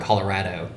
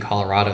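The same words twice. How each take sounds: First: It is said with a local Colorado pronunciation. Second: It is said with the standard general pronunciation. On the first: "They call it Colorado" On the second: "people from Colorado don't say Colorado"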